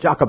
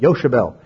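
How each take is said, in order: First: The name begins with a J sound. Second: The name begins with a Y sound. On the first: This is the speaker's own usual pronunciation. "I said Jochebed" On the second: This is how the film pronounces it. "That's how they pronounce it"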